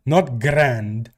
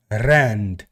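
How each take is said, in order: First: Said in the usual way. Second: Low "rand" with a trilled R; "rand", trilled R, pitch dropped; rolled R. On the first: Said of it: "I'm not saying hundred grand". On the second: Shown as a demonstration. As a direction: roll the R clearly to open "rand". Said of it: "Let me roll my R's".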